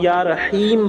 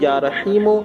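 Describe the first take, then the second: First: The last word ends on a bare consonant. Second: The last word ends with a short vowel. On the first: The reciter stops here. "जहां ठहरेंगे वहां या रहीम पढ़ेंगे" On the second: The reciter continues without stopping. "जहां लगातार मिलाकर पढ़ेंगे वहां"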